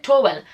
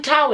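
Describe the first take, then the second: First: "towel" said as TOH-well; Nigerian pronunciation. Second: "towel" said as TOW-el, rhyming with owl; corrected pronunciation. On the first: Shown as a demonstration. Shopper telling supermarket staff what she wants, Nigerian "towel" as TOH-well. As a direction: give "towel" two syllables, TOH-well. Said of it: "the way we say it in Nigeria". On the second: Retold or imitated. Shop worker correcting a foreign customer, "towel" rhyming with owl. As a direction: open "towel" with an ow sound. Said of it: "He said, "No, you mean towel".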